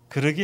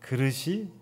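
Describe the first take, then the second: First: The word ends in a k sound. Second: The word ends in a t sound. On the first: This is how the mother says it. The speaker calls it wrong. "그릇이 아니라" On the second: This is the standard form. The speaker calls it right. "바른 말이지만"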